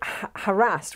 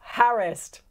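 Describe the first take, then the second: First: It is said the American way. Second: It is said the old-fashioned British way. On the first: The speaker calls it wrong. "it is actually the American way of saying it" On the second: The speaker calls it right. "I'm standing up for my"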